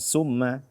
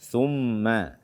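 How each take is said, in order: First: The word begins with a hissing 's' sound. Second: The word begins with a soft 'th' sound. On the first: The speaker calls it wrong. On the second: The speaker calls it right.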